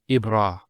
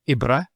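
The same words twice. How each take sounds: First: The A vowel after R is long. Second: The A vowel after R is short. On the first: The speaker calls it right. "Once again, it's a, a long vowel" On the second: The speaker calls it wrong. "Not ibra"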